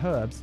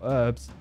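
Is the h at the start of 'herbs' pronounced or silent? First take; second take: pronounced; silent. First: The h at the start is pronounced. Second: The h at the start is silent.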